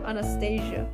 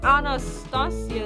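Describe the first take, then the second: First: The name is said with English vowel sounds. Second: The name is said with Spanish vowel sounds. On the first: The speaker calls it wrong. "not even for me a good pronouncing" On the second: The speaker calls it right. "Anastasia is better"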